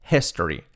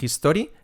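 First: "history" with breathed h, i like e; correct pronunciation. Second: "history" with harsh Spanish j, "jistori"; wrong pronunciation. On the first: Teacher correcting learners, correct "history". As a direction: say "history" as "hes-tory". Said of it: "La H aspirada". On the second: Teacher warning learners, mispronounced "history". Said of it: "Cuidado que no es history". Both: Shown as a demonstration.

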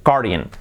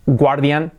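First: Guardian as GAR-dee-an, falling; pronunciación correcta. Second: Guardian wrongly as gwar-DYAN; pronunciación incorrecta. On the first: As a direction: say "guardian" with silent u. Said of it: "completamente diferente". (guardian bien dicho, 'gár-dian') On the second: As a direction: say "guardian" with gw, rising. (guardian mal dicho, 'guar-dian') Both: Shown as a demonstration.

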